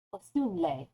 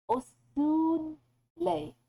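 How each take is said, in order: First: Osunle said once, falling at the end; settled Swedish word. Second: Osunle stretched slow and higher; drawn-out osunle, pitch up on os; Swedish word. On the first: Settling on the Swedish word osunle. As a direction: land osunle with a falling tune. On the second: Sounding out osunle carefully for viewers. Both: Shown as a demonstration. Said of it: "that's an adjective".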